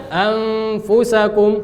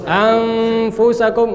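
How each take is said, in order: Both takes have the same delivery.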